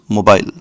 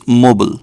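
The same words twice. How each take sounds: First: It is said in a British accent. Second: It is said in an American accent. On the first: "British people call this mobile" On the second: "Americans call this mobile"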